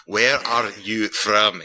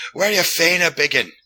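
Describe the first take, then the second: First: Very slow, word by word for a foreigner; slowed right down. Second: High, loud-ish Glasgow pub slur; thick mock Glasgow accent; mimicked Glaswegian. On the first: Retold or imitated. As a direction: spell it out at half speed. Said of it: "let me slow this down". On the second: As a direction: imitate a bleary Glaswegian, pitched way up. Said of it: "he's all bleary-eyed".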